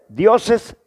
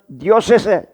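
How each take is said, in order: No difference in how they are said.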